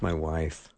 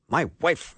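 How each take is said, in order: First: It is said in a warm, tender tone. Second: It is said in an exasperated, irritated tone. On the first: The wife's habit is cherished with affection. "It was just so tender" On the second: The wife's habit is annoying. "when his wife would do something that would be irritating to him"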